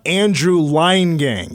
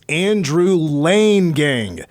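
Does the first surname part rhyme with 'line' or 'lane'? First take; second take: line; lane. First: The first surname part rhymes with 'line'. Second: The first surname part rhymes with 'lane'. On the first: The speaker calls it wrong. "It's not Andrew Line Gang" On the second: The speaker calls it right. "it's Andrew Lane Gang"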